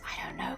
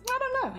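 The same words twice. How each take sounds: First: It is said in a quieter voice. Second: It is said at normal loudness.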